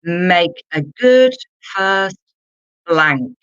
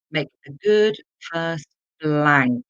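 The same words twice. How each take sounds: First: Slow and deliberate, a little louder, with GOOD stressed; a drawn-out teacher read; slow, emphatic. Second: Said in the usual way. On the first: Shown as a demonstration. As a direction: spell it out slowly for learners. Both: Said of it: "Let's look at number two".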